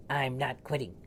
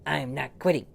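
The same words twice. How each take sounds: First: Rising insistence. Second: Higher and louder defiant cry; loud stubborn refusal; louder insistence. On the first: Repeated refusal, rising. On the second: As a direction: shout it back at the dog. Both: Acted.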